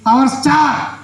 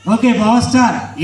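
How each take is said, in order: First: High, proud puppet announcement; puppet character. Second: Said in the usual way. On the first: Acted. Puppet naming its elder son, proud puppet voice. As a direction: announce it grandly as the dummy, pitched up.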